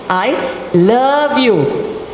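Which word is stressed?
love. The stress falls on the word love. The feeling is love, not mere liking. "I don't like you. I love you. There's a difference"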